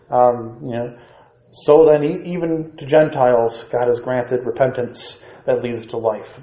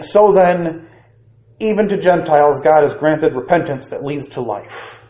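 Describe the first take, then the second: First: It is read in a doubtful, skeptical tone. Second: It is read in a plain, neutral tone. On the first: The speakers still have doubts about it. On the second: The statement is accepted without doubt.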